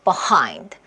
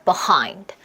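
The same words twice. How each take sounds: The two takes are said the same way.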